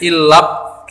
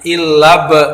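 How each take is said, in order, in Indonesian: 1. Bunyi b di akhir dipotong, tanpa pantulan. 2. Bunyi b di akhir dilepas dengan pantulan yang bergema. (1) "tidak boleh ilab gitu aja nggak boleh" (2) "tapi ilab"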